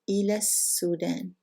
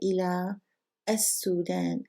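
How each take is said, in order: First: The words run together without any pause. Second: A pause and glottal catch separate the words. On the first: "if we don't pause, which is more natural reading" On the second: "If we pause"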